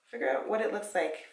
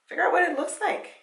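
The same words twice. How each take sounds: First: Said in the usual way. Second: Pitched up high and fast, hyping it; rally the viewers, high and quick; high excited push. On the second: Shown as a demonstration. Hyping her viewers to plan, high and fast.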